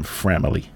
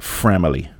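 First: Voice going out. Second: Said in the usual way. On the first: Real, not acted. Podcaster naming close listeners, voice going out. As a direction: voice gives out on the word. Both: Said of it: "my voice went out right when I said that".

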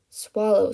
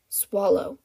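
First: Louder, insistent command; insist, harder this time; firmer repeated order. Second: Firm order. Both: A narrator's reading. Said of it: "he ordered".

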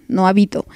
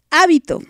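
First: "hábito" said lower, accent moved off the first syllable; stress off first syllable. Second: "Hábito" with the first syllable punched higher; stress on first syllable. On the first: Host showing the wrong title, "hábito" with misplaced stress. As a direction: say "hábito" without punching the HÁ. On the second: Host correcting the song title, "Hábito" stressed on HÁ. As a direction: hit the HÁ of "Hábito", then fall. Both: Shown as a demonstration. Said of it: "con acento en la A".

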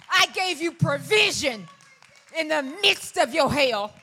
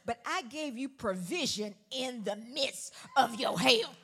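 First: Loud, slow and higher, hammering it home; slower, bigger preaching. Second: Loud and slow, leaning on each word; slow preached build; drawn-out preaching. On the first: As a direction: slam the repeated line home. Repeats the line harder. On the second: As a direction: stretch the line out over the crowd. Preaching the punchline. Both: Acted.

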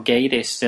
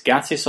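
First: Gatiss said as GAY-tiss; Gatiss with long A. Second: Gatiss said as GAT-iss; Gatiss with short A. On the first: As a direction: say Gatiss with "ay" as in gate. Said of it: "they kind of pronounce it Gatiss". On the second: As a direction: say Gatiss with a flat "a" as in cat. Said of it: "they kind of pronounce it". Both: Shown as a demonstration.

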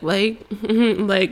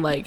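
First: Mock imitation of someone saying "like". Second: Said in the usual way. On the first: Ex mimics the speaker's verbal habit, mocking. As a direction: mimic a filler word teasingly. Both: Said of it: "mocking me".

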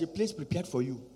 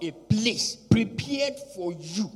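First: Said in the usual way. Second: "a place prepared for you" slow, each word weighted; emphatic. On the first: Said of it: "I mentioned that before". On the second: Real, not acted. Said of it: "but let me emphasize".

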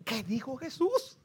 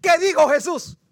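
First: Slow question with a rising end; puzzled pondering. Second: High, loud, insistent question; loud urgent demand. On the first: Man lying in bed puzzling over a phrase, pondering. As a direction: wonder it to yourself, drawn out. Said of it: "se quedó con la mente". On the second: Man begging the preacher to finish, loud and urgent. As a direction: demand the answer at full voice. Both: Acted.

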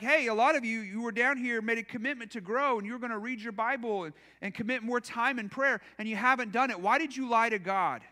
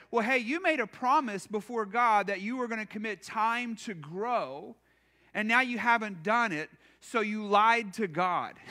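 First: Earnest guilt-tripping rebuke; serious harsh accusation. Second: Blunt, accusing pastor's rebuke; harsh accusation. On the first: Pastor seriously accusing the church of lying to God, understated harshness. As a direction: say it straight, as if you mean it. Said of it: "seriously said something like this". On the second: Pastor scolding the congregation for broken promises, mildly harsh. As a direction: lay the guilt on them, half in jest. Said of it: "That's a really harsh way to". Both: Shown as a demonstration.

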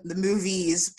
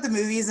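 First: MOVIES leaned on to mark the plural; stress on plural MOVIES. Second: Said in the usual way. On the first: Real, not acted. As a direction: underline the ending of MOVIES. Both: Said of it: "plural, unfortunately".

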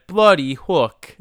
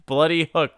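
First: Put-on awful accent, drawn out and loud; Freddie Prinze Junior. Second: Put-on weird accent, higher pitch; quicker take on his odd accent, pitched up; Freddie Prinze Junior. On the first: Co-host mimicking an actor's line, awful accent. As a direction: mimic his weird accent, slow and emphatic. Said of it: "that awful accent he picked". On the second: Co-host repeating an actor's line, weird accent. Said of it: "really weird".

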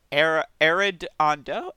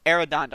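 First: "Arredondo" tried slowly with a rising question; unsure name. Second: "Arredondo" said firmly, falling, AIR-uh-DON-doh; corrected name. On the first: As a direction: sound out "Arredondo" hesitantly. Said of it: "I'm so sorry for that". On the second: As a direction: land "Arredondo" confidently. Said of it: "There you go". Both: Shown as a demonstration.

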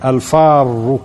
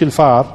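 First: الفار said as al-farr, with the r held long, meaning the one who flees; الفار with a lingering final r; correct reading. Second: الفار said as plain al-far, the mouse word; الفار read as mouse; wrong reading. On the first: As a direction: give الفار its proper doubled r. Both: Shown as a demonstration. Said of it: "مش الفار".

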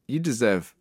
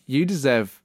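The two takes are said the same way.

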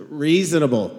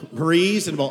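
First: Dry, sarcastic "reasonable"; mock-grudging "reasonable"; sarcastic reading. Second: Said in the usual way. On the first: Shown as a demonstration. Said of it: "This will be the voice of the past participle". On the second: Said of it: "use a little bit of the inflection".

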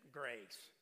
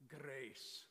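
First: Put-on "grace." in a mild Texas accent. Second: "grace" with a rolled R; like the wife. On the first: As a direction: imitate a Texan saying "grace.". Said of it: "you can't say grace with that Texas accent". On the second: Retold or imitated. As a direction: roll the R in "grace", imitating a wife's accent. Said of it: "Talk like your wife".

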